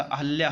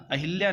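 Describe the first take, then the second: First: अहल्या, with no vowel i after ह; अहल्या said a-hal-ya; correct form. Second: अहिल्या, with a short i after ह; अहिल्या said a-hil-ya; wrong form. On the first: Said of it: "अहल्या होता है". (सही उच्चारण अहल्या) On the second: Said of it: "अहिल्या नहीं होता". (गलत उच्चारण अहिल्या) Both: Shown as a demonstration.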